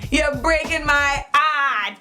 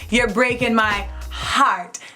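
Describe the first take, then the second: First: The h at the start of heart is dropped. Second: The h at the start of heart is pronounced. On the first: The speaker calls it right. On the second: The speaker calls it wrong.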